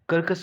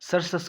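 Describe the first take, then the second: First: It begins with k, then a k sound. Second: It begins with s, then an s sound. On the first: "कर्कस क्यों नहीं पढ़ते" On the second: "सरसस क्यों नहीं पढ़ते"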